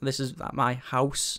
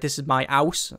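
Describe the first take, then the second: First: The h at the start of house is pronounced. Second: The h at the start of house is dropped. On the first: "I have to actually put the H back on" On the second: "I knock the H's off"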